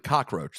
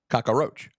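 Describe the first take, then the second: First: No vowel comes between cock and roach. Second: An extra vowel sits between cock and roach. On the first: This is the standard English form. The speaker calls it right. "There's no a in the English version after the cock" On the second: This is how the other people say it. The speaker calls it wrong. "you guys are saying cockroach"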